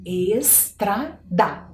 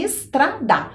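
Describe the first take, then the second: First: Teacher slowly sounding out "Estrada"; slow spelled-out word. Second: Said in the usual way. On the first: Shown as a demonstration. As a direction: stretch "Estrada" very slowly, every syllable clear. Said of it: "Procurem a letra E, S". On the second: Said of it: "Muito bem".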